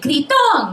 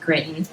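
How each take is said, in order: First: The name is said with Spanish pronunciation. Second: The name is said with English pronunciation. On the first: The speaker calls it wrong. "they want to show me how much Spanish they know" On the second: The speaker calls it right. "say my last name correctly"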